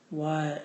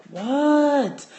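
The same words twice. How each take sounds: First: Said in the usual way. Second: Much higher and louder, drawn out; loud exasperated what. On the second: Retold or imitated. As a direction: yell it out, fed up. Frustrated second answer.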